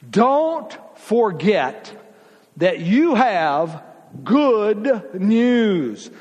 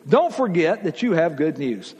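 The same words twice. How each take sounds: First: Don't forget said very slowly, each word stretched apart; slow, deliberate emphasis on the point; slow emphatic. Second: Said in the usual way. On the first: Shown as a demonstration. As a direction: draw out Don't forget, then land good news.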